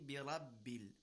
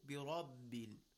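First: The r is light and thin. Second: The r is heavy with rounded lips. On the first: The speaker calls it wrong. "With tarqiq, it will be" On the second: The speaker calls it right. "With tafkhim"

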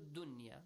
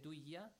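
First: The n sound is kept before the y. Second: The n sound is merged into the y. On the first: The speaker calls it right. "you don't have to apply the rule idgham. So dunya" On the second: The speaker calls it wrong. "If you say duya, the meaning might change"

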